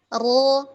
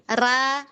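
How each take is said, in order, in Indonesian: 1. Suku kata ini terdengar tebal dan berat. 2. Suku kata ini terdengar tipis dan ringan. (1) "Ketika fathah kan ro" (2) "ru nggak bunyi, ra, ru kan nggak ya"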